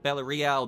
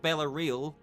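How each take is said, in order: First: The A in Real gets an accented sound. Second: The A in Real is said plainly. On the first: The speaker calls it right. "As a little accenty thing on the A?" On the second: The speaker calls it wrong. "It's not Bella Real"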